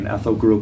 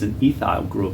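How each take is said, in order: First: It is said in an American accent. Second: It is said in a New Zealand accent. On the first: "We call ethyl in chemistry" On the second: "if you're from New Zealand"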